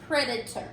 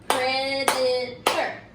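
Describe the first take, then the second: First: Said in the usual way. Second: Predator split into slow beats, one per clap; slow clapped syllables. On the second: Shown as a demonstration. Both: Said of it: "say the word and clap the word".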